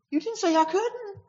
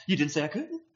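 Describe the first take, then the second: First: I hit much higher, then falling; smart-aleck emphasis on I; stress on I. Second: Couldn't stressed with a rising end; smart-aleck emphasis on couldn't. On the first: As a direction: punch the word I, high and a bit louder, smart-aleck. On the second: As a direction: lean on couldn't and let it lift like a cheeky retort. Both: Shown as a demonstration. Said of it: "no matter what word you want to put the emphasis on".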